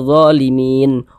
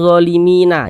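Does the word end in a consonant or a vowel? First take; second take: consonant; vowel. First: The word ends on a stopped n consonant. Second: The word ends with an added vowel sound. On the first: The speaker calls it right. "tapi dibaca zalimin. Huruf nunnya kita sukunkan" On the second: The speaker calls it wrong. "Jangan dibaca zalimina"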